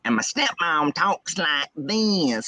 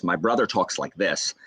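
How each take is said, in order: First: Slow, high Southern twang; stepmom's Southern accent. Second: Said in the usual way. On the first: Shown as a demonstration. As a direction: stretch every vowel in an exaggerated Southern accent. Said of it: "they have strong Southern accents". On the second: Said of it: "Ryan and I talk the, like, talk this way".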